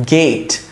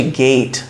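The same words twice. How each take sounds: First: গেট with a plain short e, as in English "get"; Bangla-style pronunciation. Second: গেট with a gliding ei vowel, "geit"; English pronunciation. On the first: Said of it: "বাংলায় গেট". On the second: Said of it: "কিন্তু ইংলিশে গেট". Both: Shown as a demonstration.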